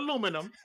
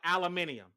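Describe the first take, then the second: First: The word is said with four syllables. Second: The word is said with five syllables. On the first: The speaker calls it right. "This is America. We say aluminum" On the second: The speaker calls it wrong. "it's too many syllables"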